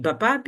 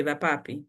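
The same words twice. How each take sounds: First: Vapapi read with B, as "bapapi". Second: Vapapi with a soft V-like W, no B. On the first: Teacher showing learners the misreading, vapapi said as "bapapi". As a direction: turn the V of vapapi into a B. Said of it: "you don't read it". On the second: Teacher showing how the written word is said, vapapi with soft V. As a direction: say vapapi with lips loose on the first sound. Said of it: "in place of W". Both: Shown as a demonstration.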